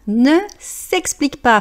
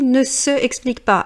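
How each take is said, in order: First: The vowel of se is dropped before explique. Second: The word se is said as a full syllable. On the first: The speaker calls it right. "Faites bien la liaison" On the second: The speaker calls it wrong. "J'entends toujours des gens qui lisent"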